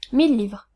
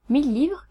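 First: Said in the usual way. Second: "Mille livres" with a rising end; questioning echo. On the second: A narrator's reading. Artist checking the price, "Mille livres" rising as a question. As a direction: lift "livres" into a mild question.

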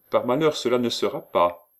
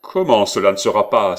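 First: Higher-pitched, regretful no; polite refusal. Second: Loud, indignant question; astonished outcry. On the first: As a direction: decline with a touch of apology. Timidly refusing the forced marriage. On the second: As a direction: explode in disbelief at being defied. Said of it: "s'écria Benvenuto, aussi étonné que serait un lion". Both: A narrator's reading.

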